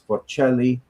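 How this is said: The name is said with an Italian pronunciation. "but Italian it's"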